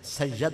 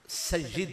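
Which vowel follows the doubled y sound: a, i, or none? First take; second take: a; i. First: An a vowel follows the y sound. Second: An i vowel follows the y sound. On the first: The speaker calls it wrong. "इसे या की जबर के साथ पढ़ना गलत है" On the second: The speaker calls it right. "या के नीचे जेर पढ़ना जरूरी है"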